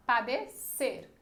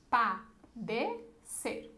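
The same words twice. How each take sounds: First: "Padecer" slowed, last syllable stressed and falling; stress on CER. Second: "Padecer" very slow, split pa, de, cer with gaps; syllable-by-syllable scansion. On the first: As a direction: run into a strong "cer" at the end of "Padecer". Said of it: "é o ser". ("Padecer" com a última sílaba tônica bem marcada) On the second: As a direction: chop "Padecer" into three separate syllables. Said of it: "Tem alguma coisa pra juntar?". ("Padecer" pausado, sílaba por sílaba) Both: Shown as a demonstration.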